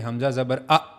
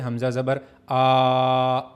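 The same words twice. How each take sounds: First: The final vowel is cut off abruptly. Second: The final vowel is stretched out long. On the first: "इस तरह झटका नहीं देना" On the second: "खींचने का मतलब ... ऐसे नहीं करना"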